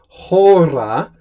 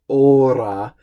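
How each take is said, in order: First: The word begins with an audible H sound. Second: The word begins directly with the vowel sound. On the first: The speaker calls it right. "pronouncing the H" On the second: The speaker calls it wrong. "and not ora"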